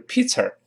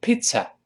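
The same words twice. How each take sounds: First: "pizza" mistakenly ending in an r; "pizza" with an r-coloured last vowel; wrong r ending. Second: "pizza" high, ending in a plain uh without r; high model "pizza", no r; correct ending. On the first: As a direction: curl the tongue at the end of "pizza", peet-ser. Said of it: "也不能读成pizza". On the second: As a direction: say "pizza" as peet-suh, tongue tip uncurled. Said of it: "舌尖不要勾". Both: Shown as a demonstration.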